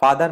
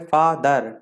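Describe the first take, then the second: First: Said in the usual way. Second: फादर slowly in two separate syllables, fa, then dar; फादर as two drawn-out beats; split into syllables. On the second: Shown as a demonstration. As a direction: break फादर in the middle with a gap. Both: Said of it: "अलग-अलग लेना पड़ता है".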